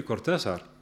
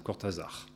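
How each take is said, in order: First: Cortázar with Spanish R and an S sound for the z; Spanish pronunciation. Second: Cortázar with French R, voiced Z, last syllable stressed; French pronunciation. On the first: Shown as a demonstration. Writer quoting his editor's question, name in Spanish. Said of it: "qu'il prononçait plutôt à la française". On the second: Writer showing how the editor said it, French pronunciation. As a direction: say Cortázar the French way, leaning on the final -zar. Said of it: "en accentuant la dernière syllabe".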